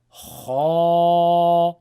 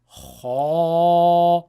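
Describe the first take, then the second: No difference in how they are said.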